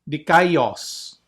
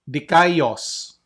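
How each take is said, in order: Both takes have the same delivery.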